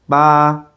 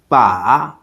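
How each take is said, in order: First: The pitch stays high and level. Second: The pitch dips low, then comes up. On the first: It means the number eight. "for the first tone" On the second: It means a handle. "For the third tone"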